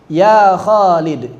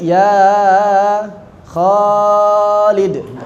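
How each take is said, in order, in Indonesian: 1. Vokal panjang ditahan dengan panjang yang singkat dan normal. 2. Vokal panjang dipanjangkan jauh lebih lama. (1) "ya segitulah mad tabi'i" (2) "Tidak menjadi ya Khalid. Itu udah bukan udah bukan tabi'i lagi"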